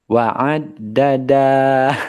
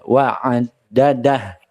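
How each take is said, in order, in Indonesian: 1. Vokal sebelum h terakhir dibaca panjang. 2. Vokal sebelum h terakhir dibaca pendek. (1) "bisa jadi kita membacanya panjang. Salah ya" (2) "tapi ini dibaca pendek saja"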